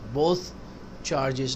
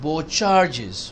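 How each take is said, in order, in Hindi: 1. 'both' के अंत में th की आवाज़ उच्चारित की जाती है। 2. 'both' के अंत में th की आवाज़ छोड़ दी जाती है। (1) "बोथ चार्जेस नहीं" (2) "बो काफी है"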